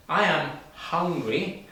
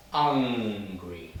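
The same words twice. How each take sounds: First: "hungry" slow, breathy h sound at the start; hungry with clear h. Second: "angry" opening straight on the vowel, no h. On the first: Teacher shows students the h in "hungry", slow and clear. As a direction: stretch the h in "hungry" for the class. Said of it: "has the H". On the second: Teacher shows students "angry" with no h, slow. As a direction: start "angry" cleanly on the a. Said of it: "no H". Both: Shown as a demonstration.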